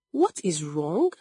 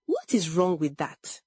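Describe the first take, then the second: First: "What is wrong" thrown back with a rising end; incredulous echo. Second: Mildly defensive question, falling away. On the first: Adaize echoing Olama, "What is wrong" rising in disbelief. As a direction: repeat "What is wrong" as a disbelieving question, swinging up on "wrong". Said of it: "she repeated". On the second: Olama answering her accuser, mildly defensive. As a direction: push back a little defensively. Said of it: "Olama became defensive". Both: A narrator's reading.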